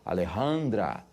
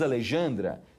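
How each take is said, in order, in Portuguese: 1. O j soa como um r gutural. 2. O j soa como um zh suave. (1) "o J tem som de um R" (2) "você não diz Alejandra"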